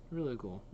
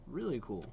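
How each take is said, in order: Both takes have the same delivery.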